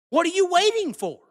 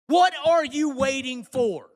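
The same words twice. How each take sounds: First: High, loud yell at the critics; real frustration boiling over; angry shout. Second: WHAT stressed, words spelled out slowly; a bitter repeat of the question; slow, pointed repeat. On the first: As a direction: demand it, pitched up. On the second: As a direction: lean on "what", slow and heavy. Angry rant at critics. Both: Real, not acted.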